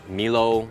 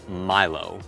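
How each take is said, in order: First: The first syllable sounds like 'me'. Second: The first syllable sounds like 'my'. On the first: The speaker calls it wrong. "à không phải" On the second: The speaker calls it right. "Giống như hai từ my và low"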